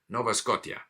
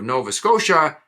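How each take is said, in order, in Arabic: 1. تنتهي كلمة Scotia بصوت 'tee-ah'. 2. تنتهي كلمة Scotia بصوت 'sha'.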